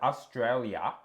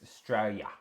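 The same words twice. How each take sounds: First: The word is said with all its syllables. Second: The word is clipped, with syllables dropped. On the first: "Instead of Australia" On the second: "we chuck out the other half of words as well"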